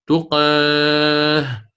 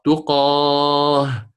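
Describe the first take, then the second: First: Very slow تقاه, long vowel tilted to "eh"; taqlil reading. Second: Very slow تقاه with heavy open aa; open fath reading. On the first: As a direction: stretch تقاه as "tuqeeh". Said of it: "هل رأيت ماذا فعلت مع القاف؟". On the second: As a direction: hold تقاه on a full, open long a. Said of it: "الفتح مقدم أداء". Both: Shown as a demonstration.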